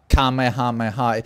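It is pronounced the Swedish way. "In Swedish, we always said Kamehameha"

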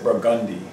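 It is said the New Orleans way.

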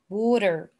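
It is said in an American accent. "So this is the American accent"

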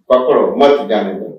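There is a pause after pakdo.

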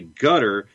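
It is pronounced the Gulf Arabic way. "Some Gulfies like to say gutter"

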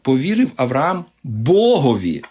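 The stress falls on the word for God. The focus is on God, the one trusted. The speaker calls it right. "Тут акцент повинен ставитися не на Авраама, а на Бога"

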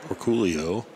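The name is said with the Filipino pronunciation.

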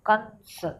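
The word is said with the nose pinched shut. The speaker calls it wrong.

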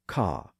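The R after the vowel is dropped. "non-rhotic accents say ca"

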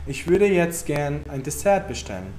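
The sentence is said in a soft, gentle tone. The request is polite and friendly. The speaker calls it right. "Não estou falando com grosseria, não estou usando um tom ríspido"

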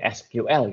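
It is pronounced with an Indonesian reading. "Kalau orang Indonesia mungkin SQL gitu"

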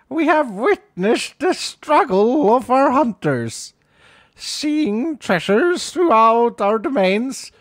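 It is read in a put-on character voice.

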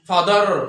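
The final r sound is clearly pronounced. "American ভাবে বলি"

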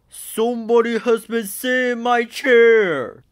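It is said in a big, deep bear voice.

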